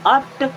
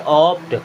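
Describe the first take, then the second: First: The vowel sounds like 'uh'. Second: The vowel sounds like 'aw'. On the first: The speaker calls it wrong. "अप्ट नहीं" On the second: The speaker calls it right. "इसे क्या पढ़ेंगे? ऑप्ट"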